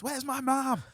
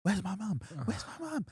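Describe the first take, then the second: First: High-pitched acted cry for mum; hammed-up panicked yell, voice way up; mock yell. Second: Climbing higher in hammed-up distress; acted mini freak-out. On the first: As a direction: yell it high without full volume. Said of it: "I would, like, yell this". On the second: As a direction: play a lost child's rising panic. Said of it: "have this mini freak".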